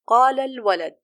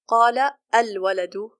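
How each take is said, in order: First: The words link with no glottal stop. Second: A glottal stop begins the second word. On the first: The speaker calls it right. "then the hamza is dropped" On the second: The speaker calls it wrong. "We don't say"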